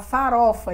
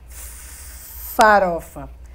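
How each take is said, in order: First: The word is said smoothly with no stretched sound. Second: The opening consonant is held and stretched out. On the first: This is the word the person means to say. "falar farofa" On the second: A person who stutters prolongs a sound. "ele faz farofa"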